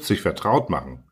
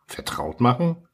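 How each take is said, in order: First: Said in the usual way. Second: "Vertraut machen" lifted high as a question; questioning echo. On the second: A narrator's reading. Little prince asks the fox what it means, questioning "Vertraut machen" with rising pitch.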